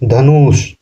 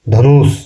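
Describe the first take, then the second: The two takes are said the same way.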